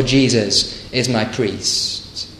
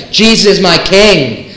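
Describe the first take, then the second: First: Slow, softer and lower, "Jesus is my priest" let fall; lesser claim. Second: Firm and emphatic, leaning on "Jesus"; weighty claim. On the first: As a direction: set it aside as the smaller claim. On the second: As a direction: declare "Jesus is my king" as a full claim. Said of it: "It's a much more far-reaching claim". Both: Shown as a demonstration.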